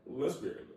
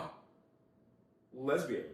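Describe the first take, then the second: First: Mocking echo. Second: Disgusted "lesbian". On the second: Retold or imitated. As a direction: mimic the friend's disgust on "lesbian". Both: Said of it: "why do you sound like that?".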